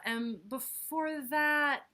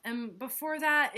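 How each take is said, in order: First: "And before that" drawn out slowly. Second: Said in the usual way. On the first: Acted. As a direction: stretch "And before that" wearily. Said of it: "refrain slowed".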